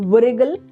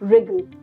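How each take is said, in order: First: A W sound is heard before the R. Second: No W sound is heard before the R. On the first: The speaker calls it wrong. "We don't say wriggle" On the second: The speaker calls it right. "we say wriggle. W is again silent"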